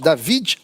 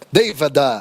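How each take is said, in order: First: The name ends on the consonant d. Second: The name ends with an added e vowel.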